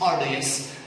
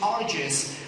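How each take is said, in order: First: The word is said in a British accent. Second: The word is said in an American accent. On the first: "in British English, this is arduous" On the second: "In American English, so they're pronouncing it arduous"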